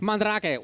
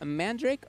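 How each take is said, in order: First: The R is rolled. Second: The R is plain, not rolled. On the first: "There he is" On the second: "You stopped rolling your R's"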